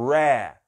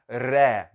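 First: The R is an English-style R with rounded lips. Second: The R is a Portuguese-style R sound. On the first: The speaker calls it right. "é ré" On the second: The speaker calls it wrong. "Não é ré e nem ré"

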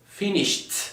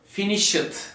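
First: The ending is said as a t sound. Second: The ending is said as a full 'ed'. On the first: The speaker calls it right. "Ed takısını her zaman t gibi okuyalım" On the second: The speaker calls it wrong. "Finished değil"

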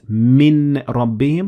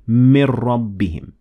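First: The n is pronounced clearly before the r. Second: The n merges into the following r sound. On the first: The speaker calls it wrong. "not min rabbihim" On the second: The speaker calls it right. "but we say mir rabbihim"

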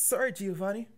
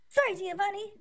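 First: It is said in the speaker's normal voice. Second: It is said in a put-on character voice.

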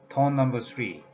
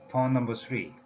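Both takes have the same delivery.

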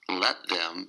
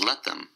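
First: Both words are said fully and separately. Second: The words blend into one reduced form. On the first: "let them becomes let them" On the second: "let them becomes let them"

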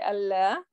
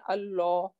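First: The L sound is light and thin. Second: The L sound is heavy and full. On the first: The speaker calls it wrong. "we don't say Allah" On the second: The speaker calls it right. "we make it tafkheem, we make it heavy"

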